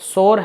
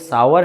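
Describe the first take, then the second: First: It is said as one syllable, 'sor'. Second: It is said as two syllables, 'sow-er'. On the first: The speaker calls it wrong. "ना तो सोर है" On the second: The speaker calls it right. "बल्कि ये सावर है"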